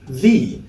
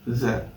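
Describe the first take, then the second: First: The word is said fully with a clear vowel. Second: The word is said quickly with a weak vowel. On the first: "in its strong form would be pronounced as the" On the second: "in its weak form it would be pronounced as the"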